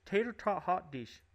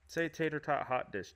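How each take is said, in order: First: "Tater tot hot dish" with long Minnesota vowels, higher; Minnesota accent. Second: Said in the usual way. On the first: Retold or imitated. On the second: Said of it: "I do that to her".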